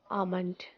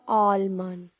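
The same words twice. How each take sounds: First: The word is said without an L sound. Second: The word is said with an L sound. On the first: The speaker calls it right. "just remove the L sound in the word and we say almond" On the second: The speaker calls it wrong. "not almond"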